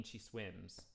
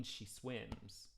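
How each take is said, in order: First: She swims anticipated, ahead of the beat; corrected rhythm on swims; right rhythm. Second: She swims sung flat on the beat; wrong rhythm on swims. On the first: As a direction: push swims just before the beat. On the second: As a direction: put swims squarely on the beat. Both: Shown as a demonstration. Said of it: "not I mean, she swims".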